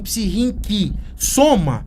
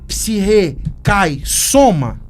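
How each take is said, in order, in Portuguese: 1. É dito com pronúncia do grego moderno. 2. É dito com pronúncia do grego arcaico.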